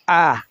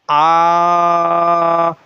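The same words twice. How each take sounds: First: The vowel is said quickly and short. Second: The vowel is stretched out long. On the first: The speaker calls it right. "normal speed" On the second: The speaker calls it wrong. "it's wrong. Stretching is wrong"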